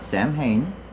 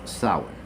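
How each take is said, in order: First: It is said like two separate names. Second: It is said as one blended word. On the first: The speaker calls it wrong. "it's not Sam Hain, it's not a first nor last name" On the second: The speaker calls it right. "is pronounced Samhain"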